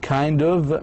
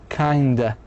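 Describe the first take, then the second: First: Both words are said fully and separately. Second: The words blend into one reduced word. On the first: "long form" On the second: "مثل kinda"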